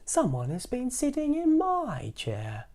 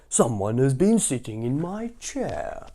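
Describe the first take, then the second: First: It is said in a middle-sized voice. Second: It is said in a great big voice.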